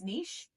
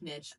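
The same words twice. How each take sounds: First: It is said the French way. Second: It is said the American way.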